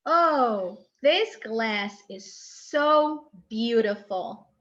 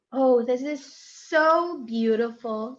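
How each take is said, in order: First: Slow, drawn-out admiring exclamation; admiring intonation. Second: Slow, louder delighted exclamation with a rising so; admiring intonation. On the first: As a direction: savour each word as if marvelling at the glass. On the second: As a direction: show real delight, stretching the words. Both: Shown as a demonstration. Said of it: "you showed intonation".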